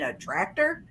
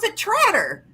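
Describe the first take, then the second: First: The word is said with a k sound. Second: The word is said without a k sound. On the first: It is the usual way of saying it. The speaker calls it right. "you mean a tractor?" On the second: It is a claimed Southern way of saying it. The speaker calls it wrong. "us people in the South say it's a Tratter"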